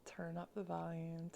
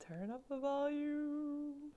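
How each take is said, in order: First: Said in the usual way. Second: Louder, higher cue. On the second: Shown as a demonstration. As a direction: turn up the volume, raised high and slow.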